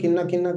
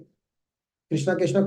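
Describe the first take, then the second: First: The word is slurred with sounds dropped. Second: Every syllable of the word is said fully. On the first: The speaker calls it wrong. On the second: The speaker calls it right.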